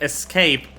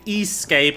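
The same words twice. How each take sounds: First: It is said as the ordinary word escape. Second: It begins with the letter name S, like S-cape. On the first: "instead of Escape" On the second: "I am pronouncing it Escape"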